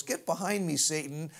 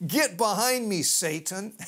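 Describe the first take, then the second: First: Understated, at everyday pitch and level; offhand rebuke. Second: Raised, forceful start dropping on the name; stern rebuke. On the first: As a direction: brush off an intruder in passing. Replayed as aside to Satan. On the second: Acted rebuke of Peter by Jesus. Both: Retold or imitated.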